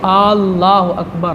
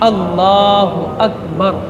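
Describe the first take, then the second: First: The opening vowel is drawn out long. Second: The opening vowel is kept short. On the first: It asks whether God is the greatest. The speaker calls it wrong. "बजाय ज़बर के कोई अगर मद पढ़े और खींच करके पढ़े" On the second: It states that God is the greatest. The speaker calls it right. "पढ़ना क्या है?"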